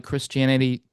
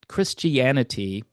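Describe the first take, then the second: First: Said in the usual way. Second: "Christianity" said slowly, every syllable sounded; careful slower pronunciation. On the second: Real, not acted. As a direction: give "Christianity" its full middle "ee-AN" syllables, unhurried. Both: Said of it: "I should just say it slower".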